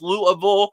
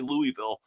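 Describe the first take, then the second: First: It is said the local native way. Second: It is said the outsider, non-local way. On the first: The speaker is from the city. The speaker calls it right. "pronounced Louisville by the us natives" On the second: The speaker is from out of town. The speaker calls it wrong. "I do slip and say Louisville"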